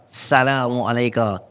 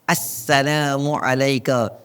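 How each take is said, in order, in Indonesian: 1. Bunyi s dibaca tunggal dan pendek. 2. Bunyi s dibaca ganda dan ditahan. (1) "salah dah" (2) "dengan syaddah dekat sin"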